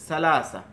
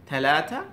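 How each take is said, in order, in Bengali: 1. শব্দটি s ধ্বনি দিয়ে শুরু হয়। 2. শব্দটি th ধ্বনি দিয়ে শুরু হয়। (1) "ইজিপশিয়ানরা বা মিশরের লোকেরা দেখা যাচ্ছে সেটাকে সা এর মতো উচ্চারণ করতেছে" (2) "মিডল ইস্টের লোকেরা দেখা যাচ্ছে থা এর মতো উচ্চারণ করতেছে"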